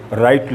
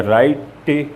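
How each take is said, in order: First: Said in the usual way. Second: राइट with an extra "tay" ending; sounded final E. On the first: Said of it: "उसे बोला नहीं जाता है". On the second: Shown as a demonstration. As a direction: voice the silent E, "rai-tay", in राइट. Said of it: "नहीं कहा करते".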